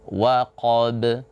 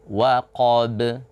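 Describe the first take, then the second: The two takes are said the same way.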